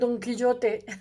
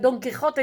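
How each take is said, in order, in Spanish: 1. La j se reemplaza por un sonido parecido a la y. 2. La j es un sonido gutural aspirado. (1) "dicen Don Quillote" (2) "ellos no pueden decir eh"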